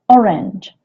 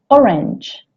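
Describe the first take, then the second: First: The word has an English pronunciation. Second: The same.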